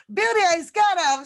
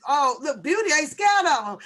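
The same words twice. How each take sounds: First: Higher, louder and faster repeat of the brag; imitating Beauty, bigger. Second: Raised, louder mock brag as Beauty; imitating Beauty. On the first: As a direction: push the mock boast up a notch. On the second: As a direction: playfully ham up Beauty's boast. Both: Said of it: "she said".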